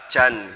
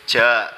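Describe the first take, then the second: First: The syllable ends with an n sound. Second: The syllable ends on a long open vowel. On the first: The speaker calls it wrong. "enggak jan" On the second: The speaker calls it right. "dibacanya cukup ja"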